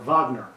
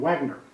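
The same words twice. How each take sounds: First: The name is pronounced the German way. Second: The name is pronounced the English way.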